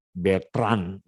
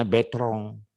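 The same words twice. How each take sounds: First: Bertrand read as spelled, betran, ending in n; as written. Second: Betrong with a nasal ong ending and no r before the t; French reading. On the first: Teacher reading Bertrand to students as it is spelled. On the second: Teacher showing students the French reading Betrong with a nasal ending. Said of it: "bacanya Betrong". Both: Shown as a demonstration.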